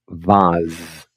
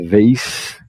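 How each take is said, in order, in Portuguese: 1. Tem um a aberto e termina em z. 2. Termina em um s surdo. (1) "E os britânicos, vase. Vou jogar um som de A e um som de Z aqui" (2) "Os americanos vão falar vase, esse S sem corda vocal é mudo"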